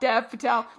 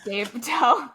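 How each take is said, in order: First: The first name has a short 'eh' vowel. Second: The first name has a long 'ay' vowel. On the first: "let's call him Dev for now because it is phonetically correct" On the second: "Let us know how to pronounce Dave Patel"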